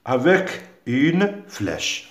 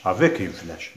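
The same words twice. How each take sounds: First: Slow and deliberate, word by word; slow dictation. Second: Said in the usual way. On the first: Shown as a demonstration. Teacher to pupils giving the instruction, slow dictation. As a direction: spell out the instruction slowly. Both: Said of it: "relie ce qui va ensemble".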